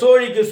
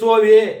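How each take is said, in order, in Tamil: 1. நடுவில் இருக்கும் மெய்யெழுத்து retroflex 'zh' ஒலி. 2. நடுவில் இருக்கும் மெய்யெழுத்து 'v' ஒலி.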